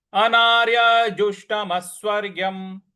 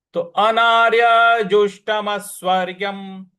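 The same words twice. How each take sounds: First: Said in the usual way. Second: Anarya जुष्टम स्वर्ग्यम louder, deliberate; recitation model. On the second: Shown as a demonstration. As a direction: chant the phrase firmly. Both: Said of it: "इस प्रकार से हो जाएगा".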